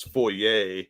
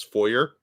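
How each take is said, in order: First: Foyer as foy-YAY, ending in -ay; French pronunciation. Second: Foyer as FOY-er, ending in r; English pronunciation. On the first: Co-host showing Frenchy French, foyer as foy-YAY. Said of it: "in, uh, Frenchy French". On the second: Co-host translating from French to English, foyer as FOY-er. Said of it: "translate it from French to English". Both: Shown as a demonstration.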